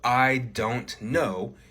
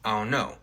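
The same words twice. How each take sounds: First: Every sound in the words is said clearly. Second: The words are clipped and run together. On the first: "instead of" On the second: "you might say"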